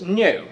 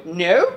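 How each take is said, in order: First: Higher, louder mimicked "No"; put-on exclaimed "No"; imitated butler. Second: Higher, louder questioning "No"; parroted, questioning "No"; mimicking echo. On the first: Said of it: "repeat exactly the way he says something". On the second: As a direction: echo his word back with rising pitch. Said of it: "they repeat exactly the way he says".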